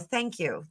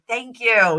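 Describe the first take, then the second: First: It is said with ordinary, lighter force. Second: It is said with strong, forceful energy.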